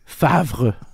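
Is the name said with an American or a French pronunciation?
French. The name is said with a French pronunciation. The speaker calls it right. "What is it? Favre"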